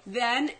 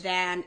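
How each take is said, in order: First: "Then" with a clear eh vowel; demonstrated vowel. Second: "than" with a clear a as in cat; demonstrated vowel. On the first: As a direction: spell out "Then" by sound, with eh. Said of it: "is this, then that". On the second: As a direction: set "than" apart with its a. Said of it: "is either or". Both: Shown as a demonstration.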